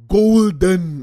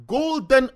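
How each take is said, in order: First: "golden" said loud and drawn out by itself; stress on golden. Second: Said in the usual way. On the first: Shown as a demonstration. Host corrects himself on the gala edition, heavy stress on "golden". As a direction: punch out the word "golden" with heavy emphasis. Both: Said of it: "Met nadruk op het woord golden".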